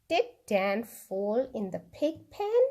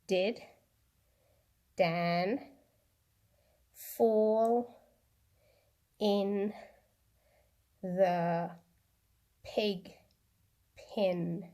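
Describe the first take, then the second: First: It is said at normal speed. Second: It is said slowly.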